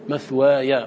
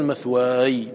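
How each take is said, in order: First: The final ya is followed by a short a vowel. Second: The final ya ends bare, with no vowel. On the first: The speaker calls it right. "فتقول مثوايا" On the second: The speaker calls it wrong. "ولا تقول مثواي بالإسكان"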